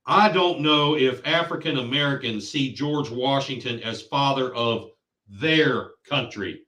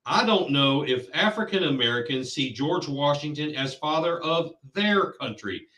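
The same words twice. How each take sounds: First: Mock his emphasis, lingering a little on "their"; stress on their. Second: Quoting with the weight on "their" in "their country", leaned on a little; stress on their. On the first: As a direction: repeat the quote and lean on "their" in "their country". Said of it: "He emphasized their". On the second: Retold or imitated. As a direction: read the quote leaning on "their" so it sets them apart. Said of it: "He put the emphasis on there".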